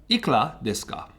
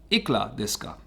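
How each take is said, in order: No difference in how they are said.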